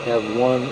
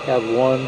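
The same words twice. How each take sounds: The two takes are said the same way.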